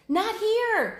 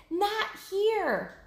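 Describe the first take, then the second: First: Much higher, louder warning yell; shouted. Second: Higher repeated yell, less loud; shouted again. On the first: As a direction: shout to turn the herd away. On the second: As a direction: call out the warning once more. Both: Acted. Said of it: "she shouted".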